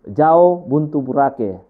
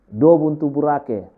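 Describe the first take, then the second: First: The first word is said as jao. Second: The first word is said as do. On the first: "Ada juga orang yang mengatakan jao" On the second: "kalau dia mengatakan do"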